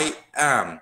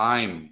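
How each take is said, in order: First: Two separate words are said in full. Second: The words are contracted into one syllable. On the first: "รูปแบบเต็มก็คือ" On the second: "อันนี้จะต้องเป็นออกเสียงเป็นอะไร"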